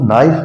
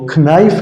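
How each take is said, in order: First: The word starts directly with the n sound. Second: A k sound is pronounced before the n. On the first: The speaker calls it right. "हम उसको नाइफ पढ़ेंगे" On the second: The speaker calls it wrong. "हम उसको खनाइफ नहीं पढ़ेंगे"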